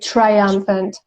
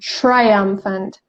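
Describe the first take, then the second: First: The opening 'tr' has a plain 't'. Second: The opening 'tr' sounds like 'chr'. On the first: "I don't say triumphant, although it's correct" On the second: "it's more like the ch sound"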